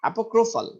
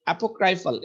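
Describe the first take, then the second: First: অ্যাপোক্রিফাল said "apo-KRO-fal", higher pitched; "kro" pronunciation. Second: অ্যাপোক্রাইফাল with ক্রাই said like English "cry"; "krai" pronunciation. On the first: Teacher correcting after checking the pronunciation, অ্যাপোক্রিফাল with a "kro" middle. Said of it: "এই যে ক্রাইটা ক্রো বলতেছে". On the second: Teacher trying out a word's pronunciation, অ্যাপোক্রাইফাল with a "krai" middle. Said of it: "এটা উচ্চারণটা অ্যাপোক্রাইফাল". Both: Shown as a demonstration.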